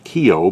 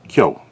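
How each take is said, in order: First: Kyo is split into two syllables, ki-yo. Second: Kyo is said as one single syllable. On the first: The speaker calls it wrong. "Not Kyo" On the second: The speaker calls it right. "two syllables only"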